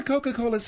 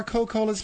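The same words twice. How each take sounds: First: "Coca-Cola's" with all four syllables; full pronunciation. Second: "Coca-Cola's" said as Co-Cola's; dropped syllable. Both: Shown as a demonstration. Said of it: "you can go either way".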